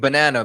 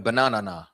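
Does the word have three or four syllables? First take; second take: three; four. First: The word is said with three syllables. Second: The word is said with an extra final syllable.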